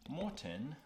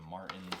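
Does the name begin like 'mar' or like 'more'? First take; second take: more; mar. First: The first syllable sounds like 'more'. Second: The first syllable sounds like 'mar'. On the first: The speaker calls it right. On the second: The speaker calls it wrong.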